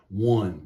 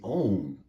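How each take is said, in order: First: It starts with a W sound. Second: It starts with a long O, no W. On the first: "we pronounce this like it's a W at the beginning" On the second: "So this should be on"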